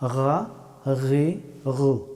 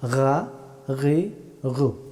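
First: The first consonant is made in the upper throat. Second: The same.

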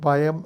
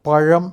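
First: The middle consonant is a plain y sound. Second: The middle consonant is a retroflex zh sound. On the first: The speaker calls it wrong. "അത് പയം ആയിപ്പോകും" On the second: The speaker calls it right. "ഇല്ലെങ്കിൽ നിനക്ക് പഴം എന്ന് പറയാൻ പറ്റില്ല"

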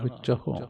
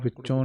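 First: The word ends in a 'hu' sound. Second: The word ends in a nasal 'on' sound. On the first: The speaker calls it right. "ਕਰਨਾ ਬਿੰਦੀ ਸਹਿਤ ਵਿਚਹੁ" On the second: The speaker calls it wrong. "ਹਾਹੇ ਔਂਕੜ ਵਿੱਚੋਂ ਨਹੀਂ ਕਹਿਣਾ"

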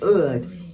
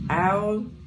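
First: The vowel sounds like the one in wood. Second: The vowel sounds like the one in cow. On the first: The speaker calls it right. "it's actually like how you say wood" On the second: The speaker calls it wrong. "I think we say owl"

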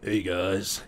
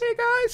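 First: It is said in a deeper voice. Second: It is said in a very high voice.

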